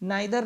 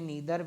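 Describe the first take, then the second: First: The first vowel sounds like 'eye'. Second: The first vowel sounds like 'ee'. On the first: "नाइदर दोनों जी सही है" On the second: "इसको हम लोग pronounce करते हैं नीदर भी"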